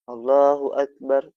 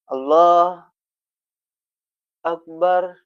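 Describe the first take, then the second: First: The two words are joined without a pause. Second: There is a pause between the two words.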